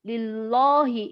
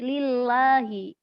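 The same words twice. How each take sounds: First: The l and a are said thick and dark. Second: The l and a are said thin and light. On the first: The speaker calls it wrong. "nggak boleh lillahi, nggak boleh" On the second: The speaker calls it right. "Tapi lillahi ke harokat fathah"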